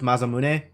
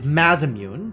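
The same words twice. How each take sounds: First: The name is said with Japanese pronunciation. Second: The name is said with English pronunciation. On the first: This is how the name is properly said. "given it's a Japanese name, it would be pronounced Masamune" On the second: The character says it his own way. "How do you think Eric is going to pronounce that word?"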